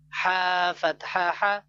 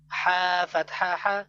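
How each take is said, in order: Both takes have the same delivery.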